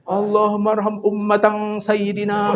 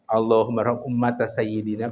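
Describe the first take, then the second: First: The word ummata ends with an added n sound. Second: The word ummata ends without an n sound. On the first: The speaker calls it wrong. "Padahal lamun ayat sayyidina teh D R-nya tong ditanwinan atuh" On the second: The speaker calls it right. "kudu kitu"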